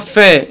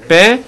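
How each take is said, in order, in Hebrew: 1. המילה מתחילה בצליל f רך. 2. המילה מתחילה בצליל p קשה. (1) "ולא פה" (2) "אלא פה"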